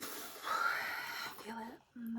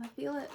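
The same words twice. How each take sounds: First: Slow whisper, barely any voice. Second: Said in the usual way. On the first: Real, not acted. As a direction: breathe it out softly after a sigh.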